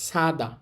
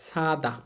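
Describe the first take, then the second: The two takes are said the same way.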